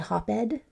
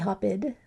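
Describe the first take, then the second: First: The ending is pronounced as a separate ed syllable. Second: The ending is pronounced as a separate id syllable. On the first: "it doesn't sound like ed? We don't say hop-ed" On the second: "Doesn't sound like id. We don't say hop-id"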